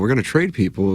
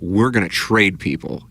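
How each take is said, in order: First: It is said in a low-key, offhand way. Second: It is said in a strong, emphatic way. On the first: It was a passing remark. "it wasn't as powerful" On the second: It announces a firm plan to sell off. "It wasn't"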